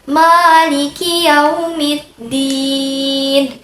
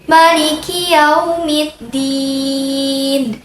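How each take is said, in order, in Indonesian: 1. Vokal setelah m panjang. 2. Vokal setelah m pendek. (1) "Sedangkan yang kedua, mimnya" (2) "yang pertama itu yang tadi saya bacakan, mimnya dipendekkan"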